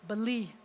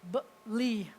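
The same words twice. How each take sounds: First: Said in the usual way. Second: "Beli" split into two separate syllables; sounded out by syllable. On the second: Shown as a demonstration. Teacher helping a student read the word, sounded out. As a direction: sound out "Beli", pausing after the B. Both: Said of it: "what does the word say?".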